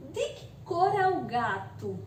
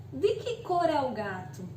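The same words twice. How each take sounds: First: De que cor é o gato? asked with a questioning tune; question intonation. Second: Said in the usual way. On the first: Shown as a demonstration. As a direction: ask it as a real question. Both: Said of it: "percebam que pela entonação muda".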